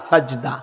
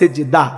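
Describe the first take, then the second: First: The first vowel sounds like 'a'. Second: The first vowel sounds like 'i'. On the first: The speaker calls it right. "সাজদা। মনে রাখবেন" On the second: The speaker calls it wrong. "অনেকেই বলে সিজদা"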